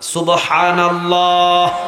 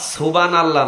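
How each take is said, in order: First: It is said loudly and strongly. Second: It is said quietly and weakly.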